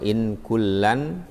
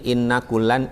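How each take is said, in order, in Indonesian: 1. Huruf n dibaca pendek dan tunggal. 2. Huruf n dibaca panjang dan ganda. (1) "bacaan Ibnu Katsir dan Imam Nafi ini dibacanya in" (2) "ada yang membaca tasydid"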